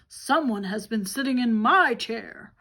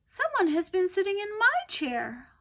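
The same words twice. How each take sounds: First: It is said in a great big voice. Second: It is said in a tiny little voice.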